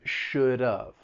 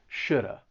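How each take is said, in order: First: Reduced to a linked schwa with a final v. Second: Reduced to a linked schwa with no v. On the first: "it's linked together" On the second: "drop that V and you just hear the schwa"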